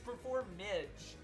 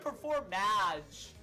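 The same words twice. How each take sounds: First: The ending rhymes with 'bridge'. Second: The ending rhymes with 'mage'. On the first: The speaker calls it right. "Like hyphen I D G E. Like bridge" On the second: The speaker calls it wrong. "It's not even performage"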